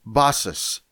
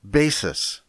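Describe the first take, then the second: First: Basis said as "PAH-sis" with an open a; Greek pronunciation. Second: Basis said as "BAY-sis" in the English way; English pronunciation. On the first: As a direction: give Basis the Greek sound, ah vowel. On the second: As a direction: say basis with an ay vowel like English base. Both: Shown as a demonstration. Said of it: "We pronounce it basis".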